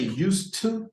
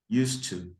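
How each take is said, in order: First: Both words are said fully and separately. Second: The two words are blended into one reduced form. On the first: The speaker calls it wrong. "you don't say used to, to. No, it doesn't sound right" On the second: The speaker calls it right. "what most Americans do is we just say this"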